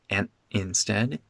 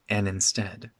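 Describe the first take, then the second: First: 'And' ends in a glottal stop. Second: The D drops and 'and' links smoothly. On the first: The speaker calls it wrong. "It's not a glottal stop. It's not an instead" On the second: The speaker calls it right. "the D here disappears"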